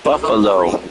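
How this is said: The word is said with an English pronunciation. It is the name reshaped to sound like the animal. "We're gonna make it Buffalo. Sounds like an animal we know"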